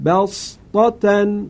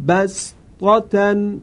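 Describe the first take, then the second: First: بسطة recited with emphatic sad, drawn out; بسطة recited slow with emphatic s. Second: بسطة recited with a plain s, drawn out; بسطة recited slow with s; with sin. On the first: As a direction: chant بسطة slowly with heavy sad. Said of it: "وجه دوم با صاد". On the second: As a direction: chant بسطة slowly with sin. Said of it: "وجه اول". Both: Shown as a demonstration.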